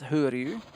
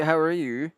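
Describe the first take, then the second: First: "Who are you?" said as a Scottish "how are you", with the "how" turned into "who". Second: Said in the usual way. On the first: Shown as a demonstration. Streamer demonstrating the Scottish greeting, "Who are you?" for "how are you". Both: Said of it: "the way we say".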